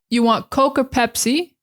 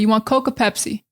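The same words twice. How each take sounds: First: It is said in a general American accent. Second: It is said in a Boston accent. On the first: "instead of" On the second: "Another thing they do in Boston ... they might say"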